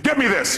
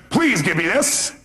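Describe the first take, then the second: First: Lightly acted curt doctor, higher and falling at the end; mildly acted demand, pitched up; doctor's order without please. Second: Lightly acted doctor, drawn out with a rising end; slow, mildly put-on demand; doctor's request with please. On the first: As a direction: give it as a quick raised order. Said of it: "maybe he doesn't say, "Please," he says". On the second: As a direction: stretch out the polite request slightly. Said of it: "the doctor raises his voice, says".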